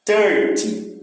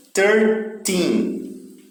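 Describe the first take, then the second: First: Thirty hit hard on thir, the ending light; stress at the start. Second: Put-on Thirteen with the weight on the last syllable, teen; stress on the end. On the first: Teacher contrasting thirty with thirteen, stress on thir. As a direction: punch the first syllable of thirty. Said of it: "o que é mais forte já é o começo". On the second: Teacher showing students stress falls on teen in Thirteen. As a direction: lean on teen in Thirteen, spaced out. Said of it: "O final é que tem mais força". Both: Shown as a demonstration.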